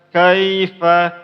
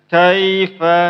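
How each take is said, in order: Both takes have the same delivery.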